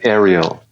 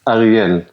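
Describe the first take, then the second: First: The name is said with an American pronunciation. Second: The name is said with a Hebrew pronunciation. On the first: This is how it is said in the US. "here in um, in the U S, you'd say" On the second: This is how it is said in Hebrew. "in Hebrew, you'd say"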